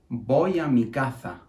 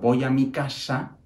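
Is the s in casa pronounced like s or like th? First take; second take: th; s. First: The s in casa sounds like th. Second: The s in casa sounds like s. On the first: "Transforman la S en una Z" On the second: "no lo dicen así"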